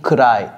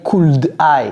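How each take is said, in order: First: The two words run together into one linked unit. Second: The two words are said separately, without linking. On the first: The speaker calls it right. "j'ai dit could I" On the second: The speaker calls it wrong. "J'ai pas dit could I"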